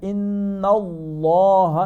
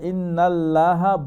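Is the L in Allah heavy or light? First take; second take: heavy; light. First: The L in Allah is heavy and full-mouthed. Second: The L in Allah is light and thin. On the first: The speaker calls it right. "ফুল মাফ হবে" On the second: The speaker calls it wrong. "এটা ইন্নাল্লাহ বলা যাবে না"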